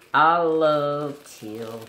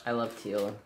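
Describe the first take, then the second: First: Slow, louder, stretched I love teal; drawn-out emphatic. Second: Said in the usual way. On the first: Shown as a demonstration. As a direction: linger on each word of I love teal.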